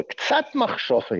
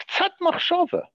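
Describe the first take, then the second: First: "ktsat machshava" drawn out slowly, each word weighed; slow down and lean on "ktsat machshava"; slow emphasis. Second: "Ktsat machshava" thrown up much higher, like a punchline; high emphatic repeat. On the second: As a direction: lift "Ktsat machshava" way up to drive the point home. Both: Shown as a demonstration.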